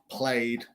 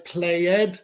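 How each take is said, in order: First: The ending is just a d sound, no extra syllable. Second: The ending is said as a separate extra syllable. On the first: The speaker calls it right. "We say played" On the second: The speaker calls it wrong. "No es played, porque es Y"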